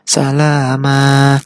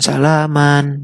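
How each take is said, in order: First: The word ends with a drawn-out a vowel. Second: The word ends with an n sound. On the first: The speaker calls it right. "tapi salama. Kira-kira panjangnya dua harokat" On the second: The speaker calls it wrong. "Bukan salaman"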